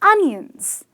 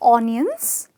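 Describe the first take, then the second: First: The first vowel sounds like 'uh'. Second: The first vowel sounds like 'oh'. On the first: The speaker calls it right. "it's the latter" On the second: The speaker calls it wrong. "Look at the O there"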